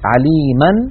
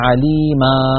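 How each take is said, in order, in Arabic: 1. تنتهي الكلمة بصوت النون. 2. تنتهي الكلمة بألف طويلة من غير نون. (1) "إن كان آخرها فتحة يعني مثلا عليما" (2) "يحذفون التنوين ويقفون بألف معوضة عن تلك النون فيقولون عليما"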